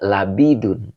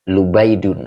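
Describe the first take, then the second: First: The name begins with a 'la' sound. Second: The name begins with a 'lu' sound. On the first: "Ada juga yang bacanya labidun" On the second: "Ini dibaca lubaidun"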